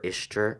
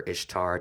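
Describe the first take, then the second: First: Ishtar ending in an unstressed "ter"; variant pronunciation. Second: Ishtar with a full "tar" ending; variant pronunciation. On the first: Host offers variant names of the goddess, Ishtar said "ISH-ter". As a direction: say Ishtar to rhyme loosely with "sister". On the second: Host offers variant names of the goddess, Ishtar said "ISH-tar". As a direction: say Ishtar with an open "ah" in the last syllable. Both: Shown as a demonstration. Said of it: "the pronunciation from different cultures".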